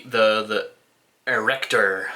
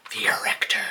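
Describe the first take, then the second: First: Dramatic announcer. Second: Breathy whispered title; would-be voice actor whispering the album name; dramatic whisper. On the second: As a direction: hiss the name like a movie trailer. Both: Shown as a demonstration. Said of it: "Can you tell I wanna be a voice actor?".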